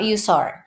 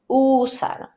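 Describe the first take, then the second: First: The first vowel is not a pure Spanish u. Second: The first vowel is a pure Spanish u. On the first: The speaker calls it wrong. "But it's not usar" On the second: The speaker calls it right. "Remember the U sound"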